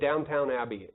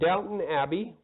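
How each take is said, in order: First: The first word sounds like downtown, with two t's. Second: The first word sounds like Downton, without downtown. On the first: The speaker calls it wrong. "I said it wrong. Said Downtown Abbey" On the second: The speaker calls it right. "This isn't downtown, but Downton Abbey"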